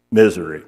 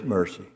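First: "Misery" said as the fix, MIZ-uh-ree, a little lower; self-correction. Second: "mercy" said by mistake in place of "misery"; the misread word "mercy", spoken plainly before the correction; slip of the tongue. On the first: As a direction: correct "Misery" firmly after the slip. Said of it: "I'm sorry". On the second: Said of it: "Misery, I'm sorry". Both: Real, not acted.

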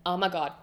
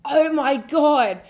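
First: Said in the usual way. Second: Loud, high, drawn-out gush; gushing excitement. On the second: Real, not acted. Telling friends how cool Universal was, gushing. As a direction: stretch it out, overwhelmed with excitement. Gushing repeat, much louder and slower.

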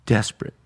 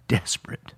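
First: Said in the usual way. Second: Softer, hushed emphasis; soft desperate. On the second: Shown as a demonstration. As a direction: lean in and almost breathe it. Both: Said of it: "And he is".

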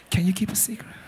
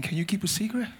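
First: Breathy near-whisper; hushed, secretive question; softer. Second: Low-key, softly spoken question; quiet, rising question. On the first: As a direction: drop it almost to a whisper. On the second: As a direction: say it softly, voice still on. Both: Shown as a demonstration. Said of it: "Say it softer".

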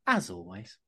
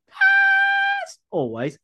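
First: Said in the usual way. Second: High, slow shouted repeat; shouted drawn-out. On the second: Pretend. Host hamming up the intro, stretched shout. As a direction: belt it out, stretched.

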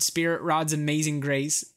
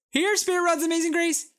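First: Said in the usual way. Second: High sing-song call to a dog. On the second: Retold or imitated. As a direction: call the dog home from across the park. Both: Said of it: "Maybe someone actually does call".

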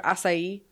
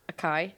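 First: Acai said AH-sai, two syllables; mock wrong acai; acai as ah-sigh. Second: Acai said uh-KAI, with a hard k. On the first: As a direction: acai with an s sound in the middle. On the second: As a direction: acai said quickly with a k. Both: Shown as a demonstration. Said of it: "Or acai".

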